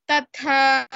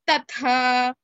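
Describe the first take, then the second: First: The second consonant is an aspirated th. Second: The second consonant is an aspirated th.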